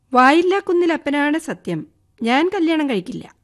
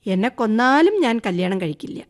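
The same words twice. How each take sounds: First: Higher, louder sworn oath; sudden oath. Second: Said in the usual way. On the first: Acted. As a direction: swear it out all at once. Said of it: "പെട്ടെന്ന് ആണയിട്ടു".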